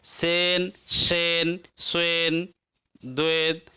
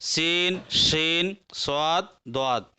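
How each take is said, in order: First: सेन, शेन, स्वेन, द्वैत with "ay" vowels; majhul, hypothetical reading. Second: सीन, शीन with long "ee", स्वाद, द्वाद with "aa"; pure vowels: seen, sheen, swaad, dwaad for सीन, शीन, स्वाद, द्वाद; maruf reading. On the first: Teacher shows the unused reading, सेन, शेन in majhul "e". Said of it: "अगर इसको मजहूल पढ़ते तो कैसे पढ़ते". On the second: Teacher models the correct reading, सीन, शीन in maruf vowels. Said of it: "लिहाजा ऐसे पढ़ेंगे". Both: Shown as a demonstration.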